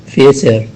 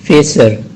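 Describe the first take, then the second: No difference in how they are said.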